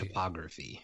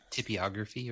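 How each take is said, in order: First: The first syllable sounds like 'top'. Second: The first syllable sounds like 'tip'. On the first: The speaker calls it right. "it's topography" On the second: The speaker calls it wrong. "There's no I"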